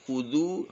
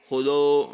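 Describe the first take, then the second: First: The vowels sound close and rounded, like u. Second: The vowels sound open, like o. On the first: The speaker calls it right. "jadi memang harus mencucu maksimal ya" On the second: The speaker calls it wrong. "kalau kurang sungguh-sungguh monyong, keluarnya seperti oyok"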